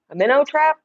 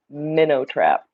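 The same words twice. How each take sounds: First: Surprised question. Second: Said in the usual way. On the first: Real, not acted. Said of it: "Somebody told me to get a minnow trap". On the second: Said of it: "That's on the list".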